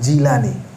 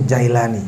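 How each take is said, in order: First: The first vowel sounds like 'i'. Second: The first vowel sounds like 'ai'. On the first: The speaker calls it right. "yang benar Jilani" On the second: The speaker calls it wrong. "kebanyakan kita sebut Jailani"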